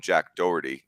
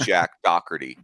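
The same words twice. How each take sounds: First: Said in the usual way. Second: Doherty said as "DOCK-er-tee"; mock mispronunciation. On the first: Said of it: "we're gonna t-, call him". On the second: Shown as a demonstration. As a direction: say Jack Doherty with a hard k in Doherty. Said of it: "if you were a person that said".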